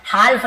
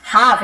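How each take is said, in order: First: हाल्फ said as haalf, the L sounded out; teacher voices हाल्फ with a clear L, as the wrong way. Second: हाफ said as haaf, the L kept silent; teacher says हाफ plainly with no L sound, as the right way; half said without the L. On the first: Teacher showing students the wrong way: हाल्फ with the L spoken. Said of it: "हाल्फ नहीं पढ़ेंगे". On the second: Teacher showing students the right way: हाफ without any L. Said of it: "इसे हाल्फ नहीं पढ़ेंगे". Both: Shown as a demonstration.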